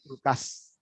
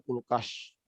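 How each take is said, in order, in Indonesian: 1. Konsonan terakhirnya bunyi 's' biasa. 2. Konsonan terakhirnya bunyi 'sh'. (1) "sama dengan sa aja ... seperti biasa, seperti es" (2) "tidak akan bilang kan kulkas"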